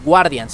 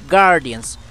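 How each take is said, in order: First: A 'u' sound is pronounced after the G. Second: No 'u' sound is pronounced after the G. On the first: The speaker calls it wrong. "No es Guardians" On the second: The speaker calls it right. "no se pronuncia la U"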